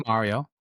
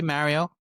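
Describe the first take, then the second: First: Mario with an open "ah", MAH-rio; standard Mario. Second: Mario with a flat "a" as in "cat", MA-rio; Bronx-style Mario. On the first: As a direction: say Mario with the vowel of "car". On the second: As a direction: say Mario with the vowel of "man". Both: Shown as a demonstration. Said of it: "Some people say Mario".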